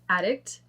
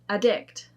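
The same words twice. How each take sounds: First: The stress is on the first syllable. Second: The stress is on the second syllable. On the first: It is used as a noun. "we're going to do the noun" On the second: It is used as a verb. "then we're going to do the verb"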